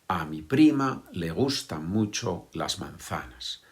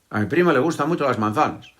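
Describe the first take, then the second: First: The words are said separately, one by one. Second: The words are rushed out very quickly. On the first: "Nadie dice eso como yo lo he dicho ahora" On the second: "intentar decirlo muy rápido"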